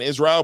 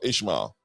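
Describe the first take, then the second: First: The name is said with a 'zr' sound. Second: The name is said with a 'shm' sound. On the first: This is how other people say the name. The speaker calls it wrong. "people been saying Israel" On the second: This is how the man says his own name. The speaker calls it right. "he calls himself Ishmael"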